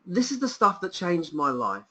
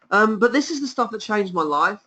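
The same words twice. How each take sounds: First: Quieter, heartfelt; moved and sincere; softer, sincere. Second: Said in the usual way. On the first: Real, not acted. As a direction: let it land gently. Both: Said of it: "I'm really emotional about this offer".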